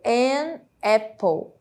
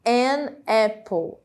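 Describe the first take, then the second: The two takes are said the same way.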